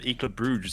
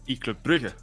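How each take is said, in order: First: The city name has the English pronunciation. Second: The city name has the local pronunciation. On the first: This is how the other host usually says it. "you tend to call them E Club Bruges" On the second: This is how the speaker himself says it. "I call them E Club Brugge"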